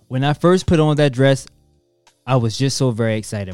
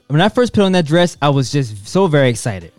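First: It is read in a flat, bland voice. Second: It is read with lively enthusiasm.

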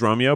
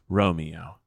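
First: The name is squeezed into two syllables. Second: The name is spoken with three full syllables. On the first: "Almost always it's Romeo" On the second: "there are occasional times where it's Romeo"

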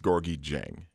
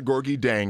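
First: The surname starts with a J sound. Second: The surname starts with a D sound. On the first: The speaker calls it right. "it's Gorgie Jang" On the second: The speaker calls it wrong. "It's not Gorgie Dang"

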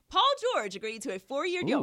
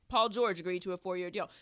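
First: It is read in a happy, smiling tone. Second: It is read in a plain, neutral tone.

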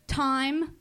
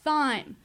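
First: The word begins with a plain t sound. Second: The word begins with a lisped th sound.

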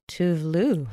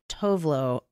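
First: The name is said with 'u' vowels, as Tuvlu. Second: The name is said with 'o' vowels, as Tovlo. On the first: The speaker calls it right. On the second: The speaker calls it wrong.

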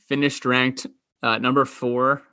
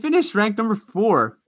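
First: It is said in a plain, flat, normal way. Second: It is said with more energy and excitement. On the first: The speaker calls it wrong. "Don't say that normal" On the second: The speaker calls it right. "Say that with some more gusto"

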